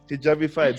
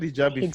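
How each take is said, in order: First: The name ends like 'petrified', with 'fied'. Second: The name ends with the sound 'feed'. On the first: The speaker calls it right. "almost like petrified from Harry Potter" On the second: The speaker calls it wrong. "said Hijabi feed first"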